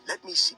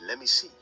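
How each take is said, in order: First: Let and me are said separately with the T. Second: The T drops and let and me merge. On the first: "Let me see becomes" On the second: "We're removing the T and we're combining"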